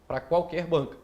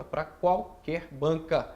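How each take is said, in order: First: Said in the usual way. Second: Slowly, leaning on qualquer; slow emphatic repeat. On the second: Shown as a demonstration. Teacher repeating the answer slowly for the student. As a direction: draw out Pra qualquer banca word by word. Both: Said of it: "Dixon, pra qualquer banca?".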